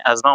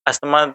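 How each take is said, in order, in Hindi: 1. कोई 'th' की आवाज़ नहीं; उसकी जगह 'z' की आवाज़। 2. बीच में 'th' की आवाज़ सुनाई देती है। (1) "सही प्रोनंसिएशन में एज़्मा होता है" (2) "अस्थमा तो जनरली लोग बोलते हैं"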